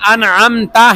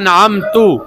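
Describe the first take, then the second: First: The word ends with an 'a' vowel. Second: The word ends with a 'u' vowel. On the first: The speaker calls it right. "मसलन अनअमता है" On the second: The speaker calls it wrong. "आपने कह दिया कि अनअम तू, ... सख्त तरीन गलती"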